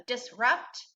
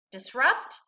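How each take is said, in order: First: "disrupt" split into two distinct syllables. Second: Said in the usual way. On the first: Shown as a demonstration. Teacher models "disrupt" for students, syllable by syllable. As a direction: say "disrupt" in two parts, dis, then rupt. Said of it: "read it syllable by syllable". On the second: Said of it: "and together".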